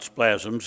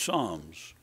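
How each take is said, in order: First: The word begins with an 'spl' sound. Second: The word begins with a plain 's' sound. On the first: The speaker calls it wrong. "it's not splasms" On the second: The speaker calls it right. "it's psalms"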